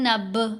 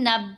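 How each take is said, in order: First: The b bounces with an echoing release. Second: The b stops flat without a bounce. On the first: The speaker calls it right. "ये कलकला है।" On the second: The speaker calls it wrong. "ये कोई नहीं कलकला।"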